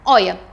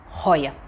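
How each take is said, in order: First: The word starts directly with a vowel sound. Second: The word starts with an audible breathy consonant. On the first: The speaker calls it right. "A gente não fala o H" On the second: The speaker calls it wrong. "e não roia. Esquece isso"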